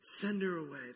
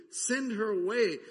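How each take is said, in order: First: Said in the usual way. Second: Loud, higher, annoyed demand; exasperated plea. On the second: Acted. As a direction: bark it out like fed-up disciples. Disciples begging Jesus, exasperated.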